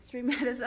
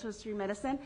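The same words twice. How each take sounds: First: Street medicine broken by a nervous giggle; nervous laugh. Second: Said in the usual way. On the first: Real, not acted. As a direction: laugh mid-phrase from nerves. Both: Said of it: "I'm sorry, I'm nervous".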